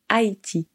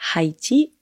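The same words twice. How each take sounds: First: The word begins with no H sound. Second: The word begins with an audible H sound. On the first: The speaker calls it right. "on dit Haïti. On ne prononce pas le H" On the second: The speaker calls it wrong. "on ne dit pas Haïti"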